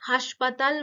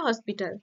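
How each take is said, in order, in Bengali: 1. এটি haspatal-এর মতো উচ্চারিত হয়, খোলা a স্বরে। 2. এটি ইংরেজি hospital-এর মতো উচ্চারিত হয়। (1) "সেটাকে অনেকে হাসপাতাল বলে ফেলে" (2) "আসল শব্দটা কি হসপিটাল"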